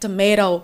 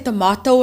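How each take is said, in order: First: Tomato is said in an American accent. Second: Tomato is said in a South African accent. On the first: "she's like tomato" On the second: "I say tomato"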